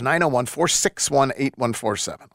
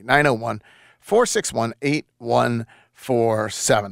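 First: The number is read at normal speed. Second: The number is read slowly.

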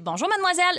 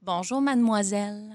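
First: It is said brightly, like an exclamation. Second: It is said trailing off, like an ellipsis.

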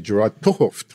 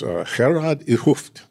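First: The name is said with American pronunciation. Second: The name is said with native-like pronunciation. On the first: The speaker calls it wrong. "they would say Gerard Erhard, but that's wrong" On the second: The speaker calls it right. "I think I've said that as well as I can say it"

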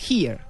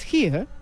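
First: It is said in an American accent. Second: It is said in a British accent. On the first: "en el inglés gringo decir aquí es here" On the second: "En el británico es here"

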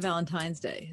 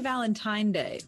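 First: It is said with an s after Valentine. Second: It is said without an s after Valentine. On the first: "instead of Valentine's Day" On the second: "do you say Valentine's Day"

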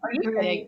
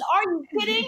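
First: It sounds scornful and dismissive. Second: It sounds excited and delighted.

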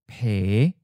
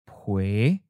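First: The word ends in the vowel e. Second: The word ends in the vowel ue. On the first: This is the coastal dialect form. "Pen Hai Kyung has a E" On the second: This is the inland dialect form. "Pen Lai Kyung uses UE as a final"

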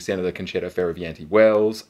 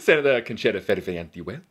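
First: The name is said with a milder accent. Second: The name is said with an exaggerated accent.

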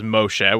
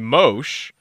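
First: The name ends with a short vowel sound. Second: The name ends on the consonant sound. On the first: The full name said properly. "which is the correct pronunciation" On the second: A casual nickname used by friends. "most of my friends for my whole life have called me Mosh"

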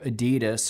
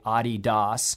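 First: It is pronounced the usual English way. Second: It is pronounced the German way.

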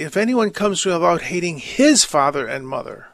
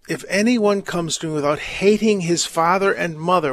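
First: The word 'his' carries strong emphasis. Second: The word 'his' carries no special emphasis.

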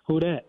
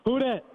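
First: It is said weakly, without much force. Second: It is said more strongly, with more force.

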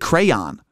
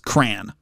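First: Crayon is said the Massachusetts way, matching spelling. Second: Crayon is said the Western New York way. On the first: "they pronounce it crayon, which actually makes more sense if you consider how it's spelled" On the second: "we pronounce the word as crayon"

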